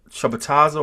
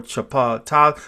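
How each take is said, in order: First: Chapataza run together as chuh-puh-TA-za; first pronunciation option. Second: Chapataza broken up as chuh-PAH-TA; second pronunciation option. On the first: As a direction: say chapataza with short "uh" vowels before "ta". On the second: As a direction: sound out chapataza with an open "pah". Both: Shown as a demonstration. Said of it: "how did you pronounce it".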